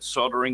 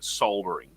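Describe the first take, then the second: First: The word is said with an American pronunciation. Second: The word is said with a British pronunciation. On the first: "you guys in America pronounce it slightly different" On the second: "for the people in, uh, in the U K and Australia"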